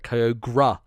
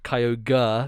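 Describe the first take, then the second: First: The ending sounds like 'gray', with a vowel. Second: The ending sounds like 'ogre', with an R sound. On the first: "like he was gra uh, at the end there" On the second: "where it's like the R E is just like a R sound"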